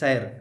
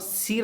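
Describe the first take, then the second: First: The vowel is an open 'ai' sound. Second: The vowel is a long 'ee' sound. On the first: The speaker calls it right. "बल्कि सैर" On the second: The speaker calls it wrong. "सीर नहीं पढ़ना चाहिए"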